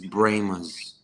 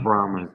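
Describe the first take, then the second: First: The first vowel sounds like 'ay'. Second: The first vowel sounds like 'ah'. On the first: This is how the locals say the name. The speaker calls it right. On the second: This is how outsiders say the name. The speaker calls it wrong.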